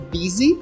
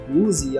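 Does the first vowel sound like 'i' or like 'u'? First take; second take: i; u. First: The first vowel sounds like 'i'. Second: The first vowel sounds like 'u'. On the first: The speaker calls it right. "O som é I" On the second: The speaker calls it wrong. "Eu já escutei muita gente aqui no Brasil falando busy, alguma coisa assim, mas não digam isso"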